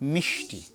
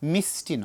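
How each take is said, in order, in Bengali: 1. t-এর আগের ব্যঞ্জনটি sh-এর মতো শোনায়। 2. t-এর আগের ব্যঞ্জনটি s-এর মতো শোনায়। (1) "শীষ ধ্বনি" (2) "আমরা অনেক সময় স্টাইল করে গিয়ে বলি ... মিষ্টি নয়"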